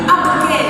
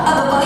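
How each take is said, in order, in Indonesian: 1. Vokal akhirnya condong ke arah e. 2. Vokal akhirnya adalah a terbuka yang biasa.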